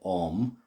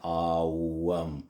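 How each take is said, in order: First: The vowel is a single plain O. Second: The vowel glides from A to U. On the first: The speaker calls it wrong. "Some people say Om, as in O O M. That's just got lost in translation" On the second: The speaker calls it right. "I say Awam because that's actually what it is"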